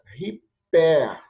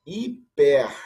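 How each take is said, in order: First: Riper, slower, with the strong aspiration h; riper, strong breathing. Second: Hiper, a light soft-breathing h, louder. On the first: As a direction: contrast riper against hiper. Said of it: "como é a aspiração forte". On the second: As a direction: read hiper as the contrast. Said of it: "aqui eu leria". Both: Shown as a demonstration.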